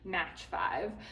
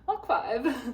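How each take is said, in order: First: The first word ends with a ch sound. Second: The first word ends with a k sound. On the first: The speaker calls it wrong. "I used to think it was Match" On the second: The speaker calls it right. "It's Mach"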